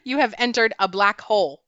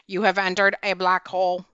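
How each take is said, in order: First: It is said in a normal speaking voice. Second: It is said in a flat, mechanical robot voice.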